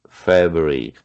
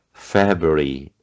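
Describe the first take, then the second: First: February again as fébi, lower; teacher repeating February; repeated demo. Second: February said as fébi, lower and slow; teacher showing February; pronunciation demo. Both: Shown as a demonstration. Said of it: "sobre a pronúncia do".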